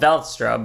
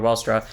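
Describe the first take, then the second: First: The name begins with a V sound. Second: The name begins with a W sound. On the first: This is how the speaker prefers to say it. "I like saying stuff that starts with the V. So in my mind, this is called" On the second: This is how most other people say it. "V was pronounced as a W"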